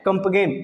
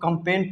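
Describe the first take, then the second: First: A g sound is pronounced in the middle. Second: No g sound is pronounced in the middle. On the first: The speaker calls it wrong. "But आपको कंपगेन नहीं पढ़ना है" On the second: The speaker calls it right. "इसको कंपेन पढ़ना है"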